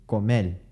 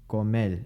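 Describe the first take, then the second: Both takes have the same delivery.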